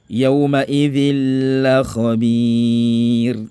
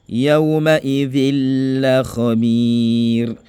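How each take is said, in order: The two takes are said the same way.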